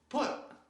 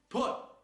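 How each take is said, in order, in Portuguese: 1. O t final termina com um sopro de ar explosivo. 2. O t final termina com um sopro de ar explosivo.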